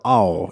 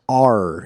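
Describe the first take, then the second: First: The R sound is replaced by a vowel glide. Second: The letter is said with a clear R sound. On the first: The speaker calls it wrong. "instead of ow" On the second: The speaker calls it right. "R instead of ow"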